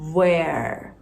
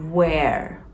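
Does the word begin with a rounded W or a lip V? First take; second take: rounded W; rounded W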